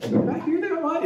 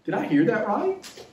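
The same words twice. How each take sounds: First: Much higher, incredulous squeak; shocked disbelief. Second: Raised, questioning disbelief; can't believe what he just heard; stunned disbelief. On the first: Disciple repeating Jesus's words, squeaking with shock. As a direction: voice jumps up in shock. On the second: Disciple to himself, hearing Jesus, in disbelief. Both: Retold or imitated. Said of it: "the people probably thought".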